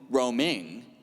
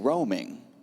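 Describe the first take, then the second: First: The final syllable is pushed out with extra stress. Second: The final syllable is soft and not pushed out. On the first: The speaker calls it wrong. "You don't say roaming" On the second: The speaker calls it right. "you don't kick the end of that word"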